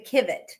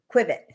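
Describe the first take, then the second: First: The word begins with a plain 'k' sound. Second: The word begins with a 'kw' sound. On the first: The speaker calls it right. "It's actually Kivet" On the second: The speaker calls it wrong. "the people in the States put the U in"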